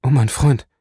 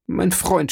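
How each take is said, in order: First: Loud pleading "mein Freund", stress on "mein"; anguished cry. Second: "mein Freund" leaps much higher, pitch breaking upward, falling at the end; second cry climbs higher than the first; rising anguish. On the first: Edmond cries out to his dying friend, loud and anguished. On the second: Edmond begs dying Faria, voice jumping high in despair. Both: A narrator's reading. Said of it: "die Hände zu falten und auszurufen".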